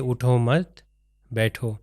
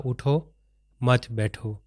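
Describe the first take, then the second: First: "اٹھو مت" together with a rise on "مت", then a pause before "بیٹھو"; pause after مت. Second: "اٹھو" then a clear pause, then "مت بیٹھو" together; pause after اٹھو. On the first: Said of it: "یا یہ کہ". ("اٹھو مت" ایک ساتھ، پھر "بیٹھو" سے پہلے وقفہ) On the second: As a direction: break the phrase right after "اٹھو", then say "مت بیٹھو" as one unit. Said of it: "اس کی مثال ہم نے دی". ("اٹھو" کے بعد وقفہ، پھر "مت بیٹھو" ایک ساتھ) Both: Shown as a demonstration.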